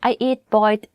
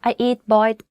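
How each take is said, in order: The two takes are said the same way.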